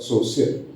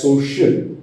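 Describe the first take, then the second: First: "social" with s in place of sh. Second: "social" with a clear sh in the middle; correct SH. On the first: Teacher contrasting the wrong way, S for SH. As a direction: say "social" as "so-see-ul". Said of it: "instead of social". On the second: Teacher showing the corrected word, SH sound. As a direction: say "social" as "so-shul", tongue pulled back. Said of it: "becomes an S H sound". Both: Shown as a demonstration.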